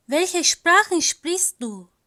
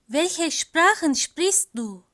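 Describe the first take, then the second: No difference in how they are said.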